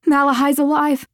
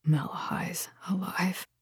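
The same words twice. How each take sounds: First: High, urgent confession; blurted out. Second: Very soft, stunned whisper. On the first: Woman confessing to her lover before losing courage, blurted. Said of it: "She blurted the truth out". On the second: Horrified man repeating the news to her, whispered. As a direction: breathe it out in horror, barely voiced. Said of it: "Then he whispered". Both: A narrator's reading.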